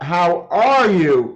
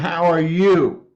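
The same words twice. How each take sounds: First: The stress is on are, not you. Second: The stress falls on you at the end.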